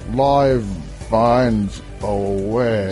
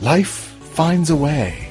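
First: It is said in a slurred, drunken impression voice. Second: It is said in the speaker's ordinary voice. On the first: "I could say it like drunken Jeff Goldblum" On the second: "I can't say it like Jeff Goldblum"

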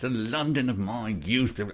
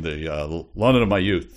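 First: It is said in a marked old-fashioned accent. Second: It is said in a plain, neutral accent. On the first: The accent slips out unsuppressed. The speaker calls it wrong. "if he had to sort of suppress his" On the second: The accent is being hidden. The speaker calls it right. "I mean"

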